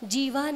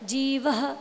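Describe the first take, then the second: First: The word ends on a long open vowel. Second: The word ends with a breathy h sound. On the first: The speaker calls it wrong. "जीवा नहीं है" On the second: The speaker calls it right. "जो विसर्ग होती हैं उनका हकार के रूप में उच्चारण होता है, जीवः ऐसे"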